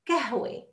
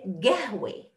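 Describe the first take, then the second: First: The word begins with a k sound. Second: The word begins with a g sound. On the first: This is the form understood everywhere. "Some will say kahwa. Kahwe, ka, and not ka" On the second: This is the Bedouin dialect form. "And the Bedouin will say gahwe"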